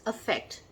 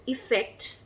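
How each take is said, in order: First: "affect" starting with an "uh" sound; distinct first vowel. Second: "effect" starting with a short "ih" sound; distinct first vowel. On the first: Teacher introducing the verb to learners, "affect" begun with "uh". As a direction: open "affect" on "uh", stress on the second syllable. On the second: Teacher introducing the noun to learners, "effect" begun with "ih". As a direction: open "effect" on "ih", stress on the second syllable. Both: Shown as a demonstration. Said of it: "there is a difference in".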